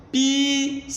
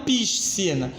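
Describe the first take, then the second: First: "piscina" in separate syllables, pi-si-na, one S sound; S silent in "piscina". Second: "piscina" as pish-si-na, both S and C heard; S wrongly sounded in "piscina". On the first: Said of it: "Eu pronuncio". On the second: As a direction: say "piscina" with an extra hushing S before the C. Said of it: "E não piscina". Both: Shown as a demonstration.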